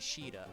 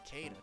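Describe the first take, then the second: First: The name begins with an sh sound. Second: The name begins with a k sound. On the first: This follows the original Japanese spelling. "it's technically Sheeta, I think" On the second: This is a personal preference. "But I pronounce it Kada"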